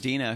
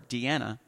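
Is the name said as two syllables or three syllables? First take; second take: two syllables; three syllables. First: The name is said with two syllables. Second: The name is said with three syllables. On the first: The speaker calls it right. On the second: The speaker calls it wrong.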